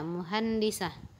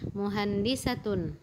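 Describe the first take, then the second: First: The word ends with a short 'ah' sound. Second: The word ends with a full 'atun' ending. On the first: The word is read at a stop. "kita sukunkan dia" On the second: The word is read with its vowel ending, not at a stop. "Kita berikan harakat"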